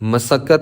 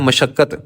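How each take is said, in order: First: The middle consonant is a plain 's' sound. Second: The middle consonant is an 'sh' sound. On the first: This is the original form of the word. "ਪਰ ਇਹ ਸ਼ਬਦ ਮਸੱਕਤ ਹੈ" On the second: This is how it is said in everyday speech. "ਸੱਸੇ ਦੇ ਪੈਰ 'ਚ ਬਿੰਦੀ ਲਾ ਕੇ ਆਮ ਬੋਲ-ਚਾਲ ਦੀ ਭਾਸ਼ਾ ਵਿੱਚ ਬੋਲਦੇ ਹਾਂ"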